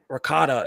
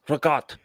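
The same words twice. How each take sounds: First: The final vowel sound is pronounced. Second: The final vowel sound is dropped. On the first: The speaker is not Italian. The speaker calls it wrong. "it's not ric- ricotta" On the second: The speaker says it the Italian way. The speaker calls it right. "You you take the a off the end"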